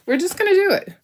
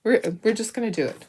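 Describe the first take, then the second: First: Cheery high-pitched we're just gonna do it; bold resolve. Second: Said in the usual way. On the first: Real, not acted. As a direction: pitch leaps up on the repeat, plucky. Decisive repeat, much higher.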